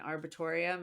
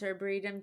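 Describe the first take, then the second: First: The word ends in 'torium'. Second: The word ends in 'retum'. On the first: The speaker calls it wrong. "kept calling it an arbitorium, and they're like, that's not how you say it" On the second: The speaker calls it right. "which I didn't even know how to pronounce arboretum"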